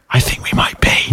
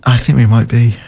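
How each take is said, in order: First: Hushed, voiceless whisper. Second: Said in the usual way. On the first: Shown as a demonstration. Co-host admits they might be the problem, whispered. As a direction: whisper it like a guilty confession. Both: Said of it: "I'll whisper it quietly".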